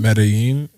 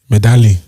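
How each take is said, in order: First: The double L sounds like a Y. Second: The double L sounds like an L. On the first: The speaker calls it right. "look at you not pronouncing the L as an L" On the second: The speaker calls it wrong. "uncouth Tunde would have said"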